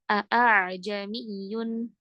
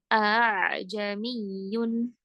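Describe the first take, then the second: First: The second hamzah is a full glottal stop. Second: The second hamzah is a soft, short blend. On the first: The speaker calls it wrong. "Tidak boleh seperti hamzah" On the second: The speaker calls it right. "Tapi bacanya samar antara itu"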